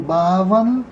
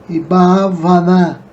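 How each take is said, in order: First: Only the first A is long and stressed. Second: Two of the A vowels are long. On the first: It is the adjective. "com acento tônico no primeiro A, o A longo" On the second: It is the feminine noun. "com os dois As longos"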